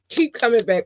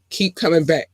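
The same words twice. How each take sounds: First: Higher, pressing keep; emphatic repeat. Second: Said in the usual way. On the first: Real, not acted. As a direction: push the word keep. Urging listeners to return.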